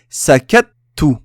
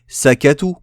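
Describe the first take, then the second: First: The t is held briefly before the vowel. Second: The t is short with no hold. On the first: The letter t is doubled. "on retient un petit peu pour qu'on entende la shadda" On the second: The letter t is single. "S'il n'y avait pas de shadda, j'aurais dit"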